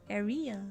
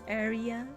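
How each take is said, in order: First: The stress is on the second syllable. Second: The stress is on the second syllable.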